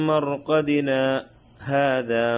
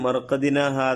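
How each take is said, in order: First: A brief silent break separates the two words. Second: The two words run together without a break. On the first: The speaker calls it right. "അവിടെ സക്ത ചെയ്യണം" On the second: The speaker calls it wrong. "ചേർത്ത് ഓതാറുണ്ട് പലരും. അങ്ങനെയല്ല ഓതേണ്ടത്"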